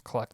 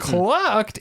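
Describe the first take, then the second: First: The word is tossed off lightly without emphasis. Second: The word is leaned on with heavy emphasis. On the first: The pun slips by without being pointed out. "He just threw it away" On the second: The pun is pointed out to the listener. "He didn't lean on it. It wasn't like"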